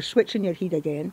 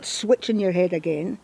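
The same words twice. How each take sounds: First: "head" said as "heid", rhyming with need; Scots pronunciation. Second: "head" with a short e, as in bed; standard English pronunciation. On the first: Interviewer switches language to demonstrate, Scots "heid" for "head". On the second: Interviewer points out actor switching speech, standard English pronunciation of "head". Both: Shown as a demonstration. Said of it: "switching my conversation, my, my language".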